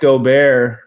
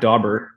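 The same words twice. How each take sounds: First: The name is said with a French sound. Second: The name is said with an English sound. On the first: The speaker calls it right. "that's how you say it with the French sounding" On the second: The speaker calls it wrong. "not Daubert"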